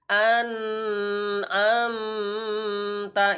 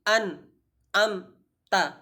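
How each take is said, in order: First: The word is stretched out too long. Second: There is a stop inside the word. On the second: "tidak boleh kita uh, berhenti"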